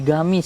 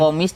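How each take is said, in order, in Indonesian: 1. Kata ini diawali bunyi G yang keras. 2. Kata ini diawali bunyi Q yang dalam.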